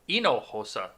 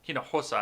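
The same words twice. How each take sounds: First: The word begins without any H sound. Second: The word begins with an audible H sound. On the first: The speaker calls it right. "They don't pronounce the H in that language" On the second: The speaker calls it wrong. "I'm sorry"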